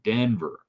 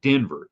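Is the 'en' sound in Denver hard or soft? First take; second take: soft; hard. First: The 'en' sound is said soft and light. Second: The 'en' sound is said hard and strong. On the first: The speaker calls it right. "It's a soft E N" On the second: The speaker calls it wrong. "you don't say it Denver"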